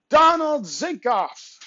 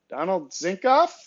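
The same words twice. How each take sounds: First: The voice falls at the end. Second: The voice rises at the end.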